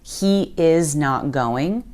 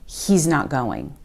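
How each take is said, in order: First: The words are said separately in full. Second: The words are squished into a contraction. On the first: "Instead of" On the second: "you'll hear us say"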